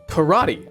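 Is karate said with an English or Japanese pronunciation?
English. It is said with English pronunciation. "you do"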